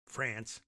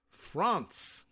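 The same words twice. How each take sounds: First: "France" with an American flat a; plain American "France"; American pronunciation. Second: "France" with a French nasal vowel; French pronunciation. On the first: Host giving the American way of saying it. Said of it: "here in America". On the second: Host saying the country's name in French. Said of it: "we'll say". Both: Shown as a demonstration.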